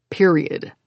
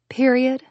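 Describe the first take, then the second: First: Period lower, dropping flat and final; a hint of stubborn finality; firm final word. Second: Period asked with a rising tune; higher quizzical Period; questioning echo. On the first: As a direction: close the argument with Period. His nostrils flared, insisting. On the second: Acted. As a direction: echo Period back, amused and doubtful. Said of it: "I repeated".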